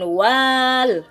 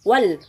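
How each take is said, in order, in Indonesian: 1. Vokalnya ditarik dan dipanjangkan. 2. Vokalnya pendek dan langsung menyambung. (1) "bukan wal, tidak dipanjangkan" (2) "maka langsung saja wal"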